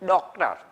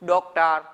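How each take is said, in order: First: The first vowel is open and wide. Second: The same.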